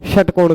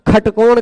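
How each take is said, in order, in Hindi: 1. यह शब्द sh ध्वनि से शुरू होता है। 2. यह शब्द kh ध्वनि से शुरू होता है। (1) "तो षट नहीं कहते" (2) "श ख के रूप में, ख की तरह उच्चारण होता है"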